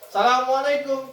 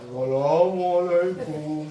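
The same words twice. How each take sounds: First: The word is imitated with a trailing echo. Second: The word is imitated with an overly deep tone. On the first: "Ada gemaknya" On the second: "Atau terlalu ngebas"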